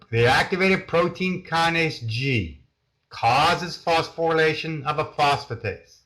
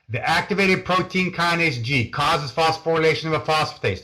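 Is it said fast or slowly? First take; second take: slowly; fast. First: It is said much more slowly. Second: It is said very fast.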